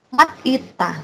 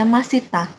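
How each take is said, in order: First: A t sound ends the first part, then a break. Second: The s sound links smoothly into the next vowel. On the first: The speaker calls it wrong. "bukan mat ita, bukan kayak gitu" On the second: The speaker calls it right. "Jadi ini bacanya masita"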